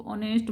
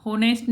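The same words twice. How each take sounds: First: ऑनेस्ट starting straight on the o, h silent and softer; right pronunciation. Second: होनेस्ट with a sounded h at the start; wrong pronunciation. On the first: Teacher to class, showing the right way: ऑनेस्ट with silent h. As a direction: say ऑनेस्ट with no h, opening on a long o. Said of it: "ऑनेस्ट बोलते हैं". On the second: Teacher to class, showing the wrong way: होनेस्ट with a spoken h. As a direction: say होनेस्ट the wrong way, h clearly voiced. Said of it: "होनेस्ट नहीं हम बोलते इसको". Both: Shown as a demonstration.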